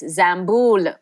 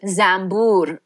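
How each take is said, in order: First: The word ends with an L sound. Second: The word ends with an R sound. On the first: The speaker calls it right. "with an L at the end" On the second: The speaker calls it wrong. "with an R at the end"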